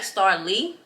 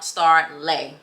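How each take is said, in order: First: The last syllable is pronounced 'lee'. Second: The last syllable is pronounced 'lay'. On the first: This is how the spelling suggests it reads. The speaker calls it wrong. "it looks like Star Lee because it's spelled L E I G H" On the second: This is the name's actual pronunciation. The speaker calls it right. "but my name is actually Star Lay. That's how you say it"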